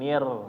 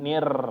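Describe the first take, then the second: First: The r is trilled short and lightly. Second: The r is trilled long and heavily. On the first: The speaker calls it right. "nir dikurangin" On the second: The speaker calls it wrong. "ini berlebihan ya"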